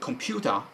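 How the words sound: It is said with a British accent. "American or English pronunciation"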